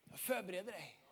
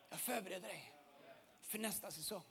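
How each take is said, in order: First: Much softer, intimate and hushed; soft voice of God. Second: Even softer, lower echo of the promise; hushed repeat. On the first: God tenderly speaking to the listener, soft and hushed. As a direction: let God speak gently, almost a secret. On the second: God repeating the promise to the listener, softer still. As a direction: let it fade into a whisper-like hush. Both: Acted.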